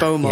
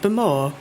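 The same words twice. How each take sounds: First: It is said flat, with a plain straight tune. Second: It is said with a lilting, leaning local accent. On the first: "they don't say" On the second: "It's like Bowmore. They've got like a funny lean"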